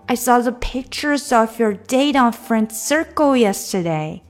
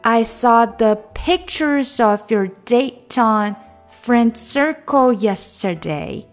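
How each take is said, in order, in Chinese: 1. 这句话的语速比较快。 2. 这句话的语速比较慢。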